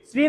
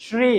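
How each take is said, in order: First: শ্রী said "sree" with a plain s; s at the teeth in শ্রী, as commonly misspoken; wrong dental s. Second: শ্রী said "shree", tongue to the palate; a clear sh starting শ্রী; palatal sh. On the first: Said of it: "শ্রী না কিন্তু". (শ্রী-তে দন্ত্য স, ভুল উচ্চারণ) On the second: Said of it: "কি হবে?". (শ্রী-তে তালব্য শ, জিভ তালুতে) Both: Shown as a demonstration.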